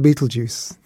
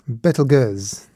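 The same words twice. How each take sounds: First: The name is said with English pronunciation. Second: The name is said with French pronunciation. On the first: "Let's just stick with Betelgeuse" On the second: "how do the French pronounce it?"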